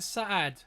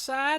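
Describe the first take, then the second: First: The vowel has a slight break in it. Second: The vowel is smooth with no break. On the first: "there's a sort of a sort of a pause almost" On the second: "Is it just Sad"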